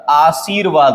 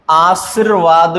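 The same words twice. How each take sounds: First: आशीर्वाद as 'aa-seer-vaad'; correct long vowel. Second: आशीर्वाद clipped to 'aas-ir-vaad'; wrong short vowel. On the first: Teacher gives the correction, आशीर्वाद with long ee. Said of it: "होता है". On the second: Teacher rejects a common error, आशीर्वाद with short i. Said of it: "नहीं होता". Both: Shown as a demonstration.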